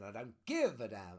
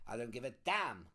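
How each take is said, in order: First: The stress falls on another word, not damn. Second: The word damn carries the strong stress. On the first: The swear word is played down so the line is allowed. "So they put the emphasis on" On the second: The swear word is the focus of the line. "you couldn't put the emphasis on the word damn"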